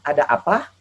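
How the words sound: Sundanese accent, with the stress at the end. "kalau orang Sunda kan bilang ... tekanan di akhir"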